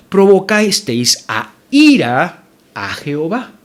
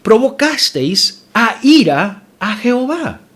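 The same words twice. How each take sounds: First: Slow, weighted read with a lift on "ira"; weighty scripture reading. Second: Higher and very slow, "ira" stretched long; slow emphatic reread. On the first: Pastor reading the verse to his church, weighted on "ira". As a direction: lean into "ira" and let it stretch. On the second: Pastor rereads the verse to drive it home, slow and emphatic. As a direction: drag out "ira" so the congregation feels it. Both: Shown as a demonstration. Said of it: "volvamos a leer".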